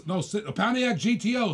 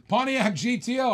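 First: Said in the usual way. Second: "Pontiac G T O" said higher with a lift on "O"; "Pontiac G T O" repeated higher, letters spaced out to fix the mistake; corrected name. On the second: Real, not acted. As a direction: firmly restate "Pontiac G T O" as the correction. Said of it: "I thought I got that wrong".

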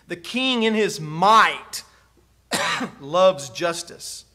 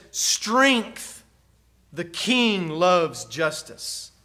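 First: Said in the usual way. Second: "Strength" set first and apart, then a pause and a slow finish; emphasis on Strength. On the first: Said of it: "It's the word might in some of your translations". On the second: Shown as a demonstration. Preacher showing the psalm's emphasized word, stress on "Strength". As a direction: lead with a firm "Strength", pause, then take the rest slowly. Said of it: "It really says".

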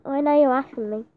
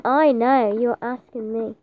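First: Said in the usual way. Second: "I know you're asking me" drawn out, weight on "I"; insistent repeat. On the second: Real, not acted. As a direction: lean on "I" and stretch the phrase out to insist.

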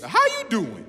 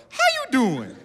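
First: High-pitched talk-show catchphrase; playful celebrity catchphrase impression; Wendy Williams. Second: Put-on very high little-kid catchphrase; toddler copying Wendy Williams. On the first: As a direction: sing out the host's greeting, much higher. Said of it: "you know Wendy Williams". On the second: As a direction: imitate a child parroting a talk-show greeting. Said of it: "I taught my baby that".

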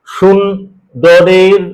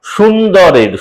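First: সুন্দরের stretched very slowly, syllable by syllable; drawn-out word. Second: Said in the usual way. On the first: Shown as a demonstration. Teacher stretching সুন্দরের slowly to show its syllables. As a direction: draw out সুন্দরের long and slow. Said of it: "এটা দেখো". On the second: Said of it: "রুদ্ধ দল, কিন্তু এক মাত্রা হবে".

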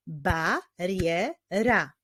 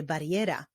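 First: "Bariera" slowly as Ba, rie, ra; syllable by syllable. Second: Said in the usual way. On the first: Shown as a demonstration. Teacher clapping with young readers, "Bariera" in three slow beats. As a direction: pause after each syllable of "Bariera". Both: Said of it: "wyklaszczmy sylaby w wyrazie bariera".

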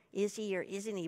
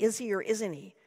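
First: Softer, drowsy slur as if drugged; drugged doll echoing the question, slurring; slow, slurred. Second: Said in the usual way. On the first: A narrator's reading. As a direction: drag the words out half-drunk. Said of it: "in a slow, slurred way".

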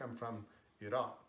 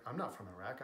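First: Iraq as ee-ROCK, open ah; Arabic pronunciation. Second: Iraq with a short English a, ih-RACK; English pronunciation. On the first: Someone from Iraq correcting how Iraq is said, Arabic pronunciation. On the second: Someone from Iraq rejecting the English Iraq, English pronunciation. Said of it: "when you're speaking". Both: Acted.

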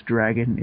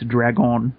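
First: Said in the usual way. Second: "dragon" with stress moved to a long final "on"; Spanish pronunciation. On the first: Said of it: "the way to pronounce dragon". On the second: Shown as a demonstration. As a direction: say "dragon" slowly, Spanish-style, drag-OHN. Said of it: "to pronounce dragon is dragon".

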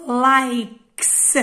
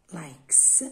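First: "لايكس" loud and stretched, ending in a strong hissed s; "لايكس" drawn out, higher, crisp s at the end; final S sound. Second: "لايكس" lower and softer, with a voiceless final s; "لايكس" low-pitched, s rather than z at the end; final S sound. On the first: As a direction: slowly punch out "لايكس" with an exaggerated voiceless s. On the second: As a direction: say "لايكس" quietly, ending on a clear s. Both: Shown as a demonstration. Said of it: "يعني نطقوها اس".

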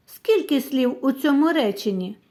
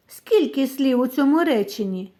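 The two takes are said the same way.

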